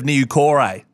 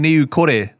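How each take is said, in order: First: The name is said in an anglicised pronunciation. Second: The name is said in its native-style pronunciation. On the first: The speaker calls it wrong. "instead of" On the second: The speaker calls it right. "how to pronounce people's names properly"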